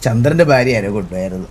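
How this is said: It is said in a very casual, offhand tone. The news is treated as unimportant. The speaker calls it wrong. "ഭയങ്കര casual ആയിട്ട്"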